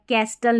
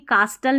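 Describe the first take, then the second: First: Short 'a' vowel with the t sounded. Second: Long 'ah' vowel with the t sounded. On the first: "कैस्टल नहीं पढ़ना है" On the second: "कास्टल नहीं पढ़ना है"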